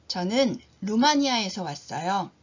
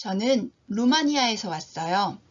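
Both takes have the same delivery.

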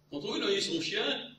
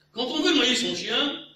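First: Said in the usual way. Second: Quand on veut noyer son chien, higher, louder and slow, hanging; mock grand opening. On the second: Proverb-lover forgets the ending, grand hanging recital. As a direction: start the proverb grandly then stall. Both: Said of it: "soufflez-moi".

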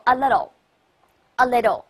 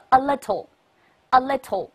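First: A LITTLE with the T softened to a quick D; alternative flapped reading. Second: A LITTLE with a crisp, sounded T; clear T reading. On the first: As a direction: read A LITTLE slowly with an American flapped T. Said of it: "也可以读作a little". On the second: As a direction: read A LITTLE slowly, pronouncing the T fully. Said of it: "也可以读作". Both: Shown as a demonstration.

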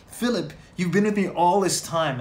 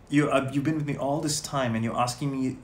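First: Raised, louder pleading Jesus. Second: Said in the usual way. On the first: Acted. Jesus pleading with Philip, lightly voiced and raised. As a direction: plead with him like a gently hurt friend. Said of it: "I imagine Jesus talking like that". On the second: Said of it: "Jesus talking like that".

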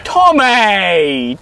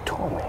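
First: Loud, high-pitched cry of the name; drawn-out, raised-voice appeal; exasperated shout. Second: Softly spoken name; gentle, quiet appeal; soft coaxing. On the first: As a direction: yell the name in protest. Interrupting accuser in quarrel. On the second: Coaxing before the outburst. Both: Acted.

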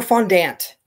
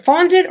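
First: "fondant" as fon-DANT, ending like "ant"; full-vowel fondant. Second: "fondant" as FON-dint, with a weak second vowel; first-syllable fondant. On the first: Unsure crafter tries the other pronunciation, "fondant" as fon-DANT. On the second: Unsure crafter tries one pronunciation, "fondant" as FON-dint. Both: Shown as a demonstration. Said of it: "Is it fondant or fondant?".

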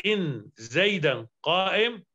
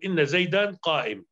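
First: "إن" cut to "in", single n, then "زيدا" as "zaydan"; slowly, a bare "in" for "إن", no doubling or final a; lightened nun. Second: "إن" said "inna", with a doubled n and final a; doubled nun. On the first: Teacher showing students the lightened particle, slow single nun. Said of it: "فإذا خففت نون فقلت إن". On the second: Teacher showing students the emphatic particle, doubled nun. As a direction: hold the n in "إن" and open it into "inna". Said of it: "بالتشديد العمل واجب، تقول". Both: Shown as a demonstration.

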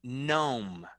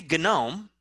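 First: "gnome" said slowly as nome; "gnome" softer and slow, G left silent. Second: "gnome" said as guh-nome; "gnome" with an extra guh before the N; wrong, sounded G. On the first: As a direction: begin "gnome" on N, no G sound. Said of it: "we say gnome". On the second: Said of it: "We don't say gnome". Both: Shown as a demonstration.

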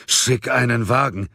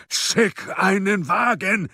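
First: Raised-pitch, insistent command; urgent order. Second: Very high, drawn-out yell; bellowed order. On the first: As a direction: order it urgently, short of yelling. First, less forceful urgent order. (dringlicher Befehl, noch ohne Brüllen) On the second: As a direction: yell the order slowly, word by word. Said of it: "brüllte Munk". (gebrüllter, gedehnter Befehl) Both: A narrator's reading.

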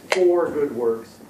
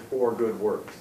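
First: "for good works" slow and louder, leaning on "for"; stress on FOR. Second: Said in the usual way. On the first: Shown as a demonstration. Teacher reading the verse to the group, slow stressed "for". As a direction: draw out "for good works", hitting "for". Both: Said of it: "when you stress that word".

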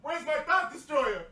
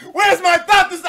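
First: Quiet grumble of a lost item; muttered search. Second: Louder, higher call across the room; mock frantic shout; loud frantic search. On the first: Pretend. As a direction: mumble it while looking around. Mock searching for his item. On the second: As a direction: yell it as the search gets urgent.

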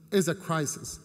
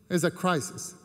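The two takes are said the same way.

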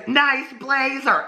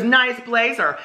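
First: Put-on high, slow mean-girl sneer; drawn-out sarcastic compliment; mean sarcasm. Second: Put-on higher-pitched mean-girl jab; quicker snide mean-girl repeat; mean sarcasm. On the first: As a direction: draw it out high, dripping with fake praise. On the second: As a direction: fake compliment, pitched up to mock. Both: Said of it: "She's real mean".

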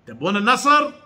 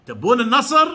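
The two takes are said the same way.

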